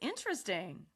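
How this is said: It is said with an excited tone. "Now say it with excitement"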